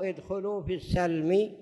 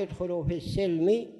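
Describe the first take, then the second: First: "السلم" read as as-salmi, with an a; fatha on the sin. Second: "السلم" read as as-silmi, with an i; kasra on the sin. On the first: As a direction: give "السلم" a short a after the s. ("السلم" بفتح السين) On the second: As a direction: give "السلم" a short i after the s. ("السلم" بكسر السين) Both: Shown as a demonstration. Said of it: "بفتح السين وبكسرها".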